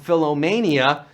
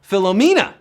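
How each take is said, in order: First: The word ends with a 'mania' sound. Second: The word ends with a 'mena' sound. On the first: The speaker calls it wrong. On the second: The speaker calls it right.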